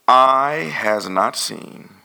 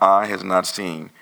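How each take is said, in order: First: It is read slowly. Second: It is read quickly.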